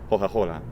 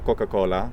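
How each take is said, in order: First: Each c becomes a breathy h-like sound. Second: Each c is a hard k sound. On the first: "is hoja-hola" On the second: "which is Italian for Coca-Cola"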